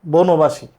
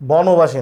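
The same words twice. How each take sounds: First: বনবাসী as বোনোবাশি, the correct form; correct pronunciation. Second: বনবাসী with an open ব, বɔনোবাসি, marked as wrong; wrong pronunciation. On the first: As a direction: give the right বনবাসী. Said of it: "এরকম হবে উচ্চারণ". (সঠিক উচ্চারণ বনবাসী) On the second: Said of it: "বনবাসী না". (ভুল উচ্চারণ বনবাসী) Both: Shown as a demonstration.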